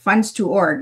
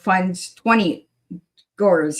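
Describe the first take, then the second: First: The middle sounds like the short word 'to'. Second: The middle sounds like the word 'twenty'. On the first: The speaker calls it right. "I was saying it right" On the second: The speaker calls it wrong. "instead of"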